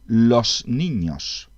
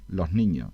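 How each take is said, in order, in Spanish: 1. La s final se pronuncia como un silbido completo. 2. La s final se vuelve un sonido suave y aspirado. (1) "no pronunciamos" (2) "queda ahí como un sonido ahí en, en ese lo del final"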